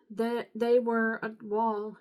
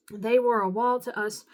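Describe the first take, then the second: First: Halting, slow stumble over the words; stumbling misread. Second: Louder, firm corrected reading; corrected reread. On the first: Reader stumbling while reading scripture aloud, halting. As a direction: trip over the start of the line. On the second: Reader fixing a stumble in scripture, firm and louder. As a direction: say it again cleanly and with weight. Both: Real, not acted.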